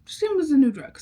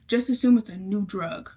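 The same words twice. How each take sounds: First: Higher and louder, leaning on assume; emphatic repeat. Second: Said in the usual way. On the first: Shown as a demonstration. Repeating the rule to viewers with emphasis on assume. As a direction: say it again with a knowing push on assume.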